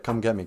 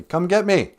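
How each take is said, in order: First: Said in the usual way. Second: Raised, louder challenge, pitched up; defiant dare. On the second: Real, not acted. Man daring God to punish his blasphemy, loud and defiant. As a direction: call it out as a dare.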